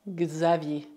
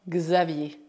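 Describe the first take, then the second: Both takes have the same delivery.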